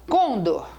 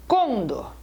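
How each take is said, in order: Both takes have the same delivery.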